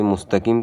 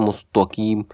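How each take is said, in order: First: مستقیم as "mustaqeem"; correct light t. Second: مستقیم as "mustoqeem"; heavy ط replacing t in مستقیم; mistaken heavy t. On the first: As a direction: keep a thin "ta" inside مستقیم. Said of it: "تا کی جگہ تا". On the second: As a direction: darken the middle of مستقیم to a rounded "to". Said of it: "کے بجائے پڑھتے ہیں". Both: Shown as a demonstration.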